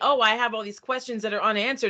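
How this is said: It is said in an annoyed, frustrated tone. The reader resents the open questions. "and they're angry about it"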